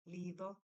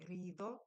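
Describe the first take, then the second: First: The word begins with an L sound. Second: The word begins with an R sound. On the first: The speaker calls it wrong. "some people will say lido" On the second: The speaker calls it right. "it's supposed to be rido, which is R"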